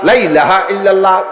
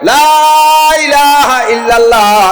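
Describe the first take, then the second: First: The first 'la' has a short vowel. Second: The first 'la' has a long vowel. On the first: It implies there are other gods besides God. The speaker calls it wrong. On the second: There is no god but God. The speaker calls it right.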